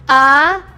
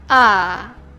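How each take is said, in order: First: The pitch dips slightly, then goes up. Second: It sounds low, tired, and drained of energy. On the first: "a bit drop to above" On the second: "As if you're dying"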